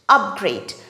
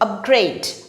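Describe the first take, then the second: First: The stress is on the first syllable. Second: The stress is on the last syllable. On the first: It is used as a noun. "The stress is on the first syllable, up" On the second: It is used as a verb. "the stress falls on the last syllable, grade"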